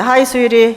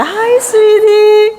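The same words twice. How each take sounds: First: Said in the usual way. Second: High, loud, drawn-out sweetheart greeting; gushing demonstration of a loving hello; expressive endearment. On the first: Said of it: "이렇게 하셨어요". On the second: Shown as a demonstration. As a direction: stretch it out slowly and sing it high. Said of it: "얼굴 표정도 중요합니다".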